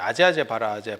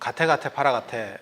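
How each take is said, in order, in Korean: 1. 'aje aje bara aje'처럼 들려요. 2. 'gate gate para gate'처럼 들려요.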